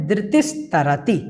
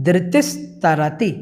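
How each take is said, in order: The two takes are said the same way.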